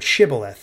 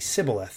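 First: The word begins with an 'sh' sound. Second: The word begins with an 's' sound. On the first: This is the password pronunciation required to pass. The speaker calls it right. "they would have to say this word" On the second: The speaker's accent gives them away as an outsider. The speaker calls it wrong. "because they had an accent, for whatever reason, they would say Sibboleth. They couldn't pronounce it correctly"

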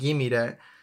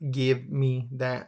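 First: 'Give me' is run together as 'gimme'. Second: Each word of 'give me' is said in full. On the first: The speaker calls it right. "So I wanted like" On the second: The speaker calls it wrong. "I knew I didn't want it like"

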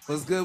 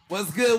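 First: It is said mellow, with low energy. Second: It is said with lively, high energy.

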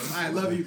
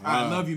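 First: The words are said in a soft, tender voice. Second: The words are said in a deep, gruff voice. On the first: The speaker calls it wrong. "you can't say it like that, bro" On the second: The speaker calls it right. "you gotta make it a little more manly, bro. You gotta be like"

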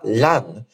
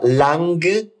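First: The word ends in a nasal without g. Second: A hard g is heard after the n. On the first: The speaker calls it right. "A gente fala lang. É como se fosse uma nasalização" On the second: The speaker calls it wrong. "A gente não fala lang"

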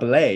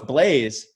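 First: The name ends without any s or z sound. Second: The name ends with a clear z sound. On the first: This is the French way of saying the name. "you don't pronounce the S if you're speaking French correctly" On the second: This is the anglicized way the family says the name. "no, it's Blaze"

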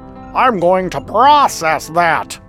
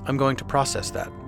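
First: An exaggerated, imitated American accent is used. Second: A natural, everyday American accent is used. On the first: It mimics how an outsider imitates Americans. The speaker calls it wrong. "Here's you doing an American accent" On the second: It is how Americans actually sound. The speaker calls it right. "It's not what we sound like"

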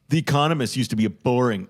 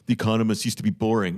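First: It is said in a plain natural voice. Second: It is said in a put-on imitating voice.

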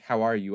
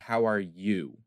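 First: The question sounds routine and offhand. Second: The question sounds sincere and caring. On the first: It is only a routine social pleasantry. "I'm not asking" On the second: The asker truly cares about the answer. "I'm asking because I care"

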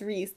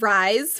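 First: The name does not rhyme with 'eyes'. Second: The name rhymes with 'eyes'. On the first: The speaker calls it right. "read the pronunciation guide, and I was like, oh, it's Rhys" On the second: The speaker calls it wrong. "who I called Rise for the entire book"

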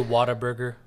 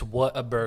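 First: The first part sounds like the word water. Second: The first part sounds like two words, what a. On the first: The speaker calls it wrong. "Please tell me you don't say" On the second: The speaker calls it right.

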